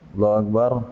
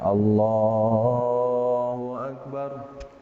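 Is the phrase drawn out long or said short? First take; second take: short; long. First: It is said quickly and short. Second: It is drawn out long and slow.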